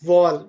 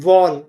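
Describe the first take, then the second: The two takes are said the same way.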